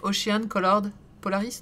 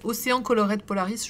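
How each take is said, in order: First: The title is said with an English accent. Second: The title is said with a French accent. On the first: "En anglais, quoi" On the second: "tu peux le prononcer à la française"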